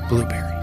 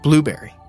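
First: It is said in a hushed, quiet voice. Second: It is said in an agitated, urgent voice.

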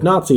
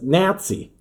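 First: It is said in an American accent. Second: It is said in a Canadian accent. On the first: This is the usual home pronunciation. "the pronunciation of Nazi" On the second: This is how it was said in the show. "as Nazi"

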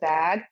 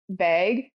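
First: The vowel is open, sounding like 'bag'. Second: The vowel is raised, sounding like 'beg'. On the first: This is how the rest of the country says it. "everybody else says bag" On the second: This is how some Midwesterners say it. "some Midwesterners who will say beg, like beg"

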